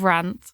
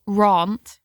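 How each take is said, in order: First: Said in the usual way. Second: "rant" said as "rahnt"; "rant" rhyming with "font"; own mispronunciation. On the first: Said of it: "instead of rant". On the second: Shown as a demonstration. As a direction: say "rant" slowly with a long open "ah". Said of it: "I say rant instead of rant".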